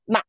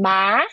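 First: The syllable is short and light without a contour. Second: The syllable is said with a rising pitch. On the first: It is a question particle. "the neutral tone, it's a question particle" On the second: It means numb. "it's numb"

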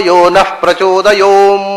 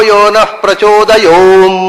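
No difference in how they are said.

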